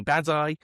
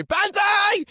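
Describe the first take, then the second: First: Banzai called out, higher but short of a scream; mild mock charge cry; restrained battle cry. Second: Full-throated, very high Banzai scream; screamed battle cry. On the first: Podcaster demonstrating a soldier's charge, restrained battle cry. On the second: Podcaster overdoing a Banzai charge demo, screamed battle cry. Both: Shown as a demonstration.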